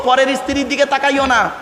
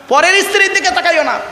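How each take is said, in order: First: Said in the usual way. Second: Emphatic repeat. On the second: Acted. Repeated quoted command, emphatic.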